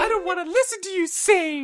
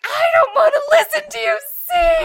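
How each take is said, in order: First: Very high mock whine of a child; echoed tantrum. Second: Put-on very high, loud, crying child's shout; mock tantrum shout. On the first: Dad echoing daughter's car tantrum, very high. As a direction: repeat the kid's whine for fun. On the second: Mom imitating tired daughter yelling in the car, very high and loud. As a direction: yell it like a tired toddler. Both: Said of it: "she's like".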